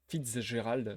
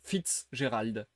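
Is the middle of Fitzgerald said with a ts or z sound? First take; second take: z; ts. First: The z is said as a plain z sound. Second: Fitz and Gerald are separated, with a ts sound. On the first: The speaker calls it wrong. "si je dis le Z euh, comme un Z, je trouve que ça sonne trop mal" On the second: The speaker calls it right. "faut que je sépare le Fitz et le Gérald"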